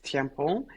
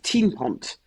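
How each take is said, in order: First: The surname is said with French pronunciation. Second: The surname is said with Flemish pronunciation. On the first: "It's it's in French" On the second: "in Flanders, which is our part of Belgium"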